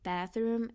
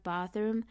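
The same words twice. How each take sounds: First: It is said in an American accent. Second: It is said in a South African accent. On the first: "If it was, I would say bathroom" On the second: "instead of bathroom"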